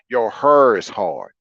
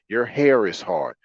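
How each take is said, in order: First: It is said in a Saint Louis accent. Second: It is said in a neutral accent.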